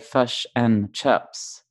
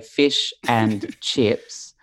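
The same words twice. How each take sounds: First: It is said in a New Zealand accent. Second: It is said in an Australian accent.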